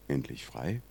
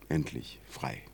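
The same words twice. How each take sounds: First: It is said as a hopeful, questioning wish. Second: It is said as a firm, certain statement. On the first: Freedom is only hoped for. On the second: Freedom has been reached.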